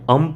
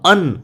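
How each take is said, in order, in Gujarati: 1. આ અક્ષરનો અંત m અવાજથી થાય છે. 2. આ અક્ષરનો અંત n અવાજથી થાય છે. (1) "આને તમે અમ પણ કહી શકો" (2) "ઘણા ઉચ્ચારમાં અન એવો પણ થતો હોય છે"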